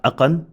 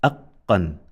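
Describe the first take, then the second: First: "aqan" with a quick single q, higher pitched; no emphasis. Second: "aqqan" with the q held double, a gap before "qan"; emphasized consonant. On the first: Teacher modelling no emphasis, "aqan" with undoubled q. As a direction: run through "aqan" without dwelling on the q. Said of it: "So we say". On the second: Teacher modelling emphasis, "aqqan" with doubled q. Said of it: "do not take away the emphasis". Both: Shown as a demonstration.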